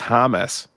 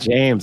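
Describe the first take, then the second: First: The name is said the Spanish way, Jaime. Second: The name is said as English James. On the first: The speaker calls it right. "it's Hamas" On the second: The speaker calls it wrong. "it's not"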